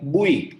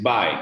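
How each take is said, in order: First: The vowel is an 'oo' sound, then 'ee'. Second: The vowel is an 'eye' sound, like bye. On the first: The speaker calls it wrong. "no one should say this like bui just because you is there" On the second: The speaker calls it right. "now this is bye"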